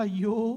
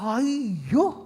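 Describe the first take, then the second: First: It sounds distressed and troubled. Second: It sounds excited and happy.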